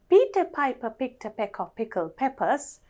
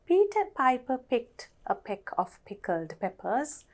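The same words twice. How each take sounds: First: The sentence is said at a fast pace. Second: The sentence is said at a slow pace. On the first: "Now let's say that faster" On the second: "අපි එක සැරයක් හිමින් කියවලා"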